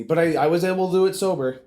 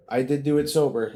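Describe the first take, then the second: First: Said in the usual way. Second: Did pressed firmly, the rest falling; stress on did. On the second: Real, not acted. Telling viewers he stayed sober, stress on did. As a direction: insist on did.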